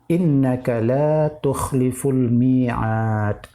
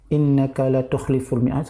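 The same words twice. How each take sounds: First: The vowel in la is held long. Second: The vowel in la is cut short. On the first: You do not break the promise. The speaker calls it right. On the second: You break the promise. The speaker calls it wrong.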